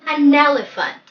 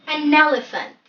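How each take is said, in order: Both takes have the same delivery.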